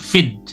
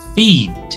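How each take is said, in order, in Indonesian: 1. Vokalnya dibaca pendek. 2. Vokalnya dibaca panjang. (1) "bukan feed" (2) "maka dibacanya feed"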